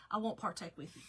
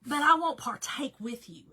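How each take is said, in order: First: Said in the usual way. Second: "I won't partake with you" pushed out loud, firm; emphatic. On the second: Acted. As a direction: declare it louder, like a playful vow. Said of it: "Like, I won't partake with you".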